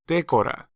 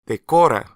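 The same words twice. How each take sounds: First: The stress falls away from the second syllable. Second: The stress falls on the second syllable. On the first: The speaker calls it wrong. "may lead you to mispronounce the Spanish verb as decora" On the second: The speaker calls it right. "it should be decora"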